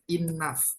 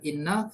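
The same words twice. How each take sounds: First: The ending is said with an F sound. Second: The ending is not said with an F sound. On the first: The speaker calls it right. "tulisannya pakai G H tapi bacanya pakai F" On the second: The speaker calls it wrong. "bukan enough"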